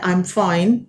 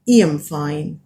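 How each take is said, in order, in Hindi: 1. शब्द 'I' 'eye' जैसा सुनाई देता है। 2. शब्द 'I' 'ee' जैसा सुनाई देता है। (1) "अब हम अभी हम कहना चाहते हैं" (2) "उस जमाने में हम कह सकते थे"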